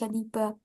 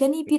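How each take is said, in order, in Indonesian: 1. Kata ini diakhiri dengan vokal 'a'. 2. Kata ini diakhiri dengan vokal 'i'. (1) "tapi janiba" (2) "bukan janibi"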